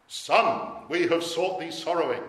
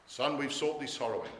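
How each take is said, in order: First: Loud, raised quote of a searching parent; parental reproach. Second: Said in the usual way. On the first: Acted. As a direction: call it out higher and much louder.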